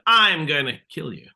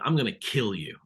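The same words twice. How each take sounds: First: The stress falls on a word other than kill. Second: The stress falls on the word kill. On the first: The speaker calls it wrong. "I'm emphasizing the wrong bit of the sentence" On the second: The speaker calls it right. "the right word to emphasize is kill"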